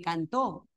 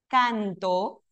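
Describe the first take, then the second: First: The stress is on the last syllable. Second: The stress is on the first syllable. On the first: He sang, in the past. "el acento en la última" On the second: I sing, in the present. "El acento aquí en la penúltima"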